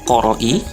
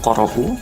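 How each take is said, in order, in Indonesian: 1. Kata ini berakhir dengan huruf hidup i. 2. Kata ini berakhir dengan huruf hidup u. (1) "tidak boleh dibaca qoro'i" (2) "atau qoro'u"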